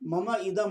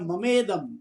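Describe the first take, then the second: First: The two words are said separately. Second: The two words are merged into one.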